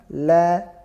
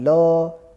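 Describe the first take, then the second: First: The vowel is an open a sound. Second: The vowel is a rounded o sound. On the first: The speaker calls it right. "la bukan lo" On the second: The speaker calls it wrong. "bukan lo"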